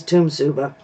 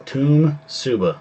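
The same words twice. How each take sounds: First: Tumsuba said as TUM-su-ba; Tumsuba, stress on first syllable; city name pronunciation. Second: Tumsuba said slowly, TUM-su-ba; Tumsuba, each syllable spelled out; slow careful pronunciation. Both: Shown as a demonstration. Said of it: "the pronunciation of the city that we live in is".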